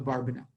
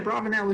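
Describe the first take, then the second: First: The middle sounds like 'barban', with a b. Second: The middle sounds like 'braven', with a v. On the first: "we have a pretty good sense that they pronounced it" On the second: "you could say Abravanel if you want"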